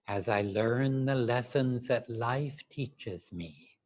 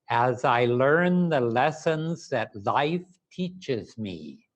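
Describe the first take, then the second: First: It is said softly and quietly. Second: It is said loudly and energetically.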